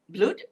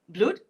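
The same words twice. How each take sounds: First: The vowel sounds like the one in 'good'. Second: The same.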